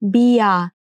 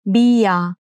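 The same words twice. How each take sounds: The two takes are said the same way.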